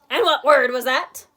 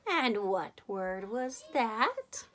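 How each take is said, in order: First: It is said in a plain, normal voice. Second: It is said very softly and menacingly.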